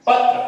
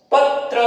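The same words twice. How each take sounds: First: Said in the usual way. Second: पत्र with a light bounce on त्र, त and र both heard; पत्र, त and र both sounded, bouncing; bounced pronunciation. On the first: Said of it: "पत्र नहीं होता". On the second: Shown as a demonstration. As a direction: give पत्र a small bounce between त and र. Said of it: "हल्का सा ये bounce होना पड़ता है".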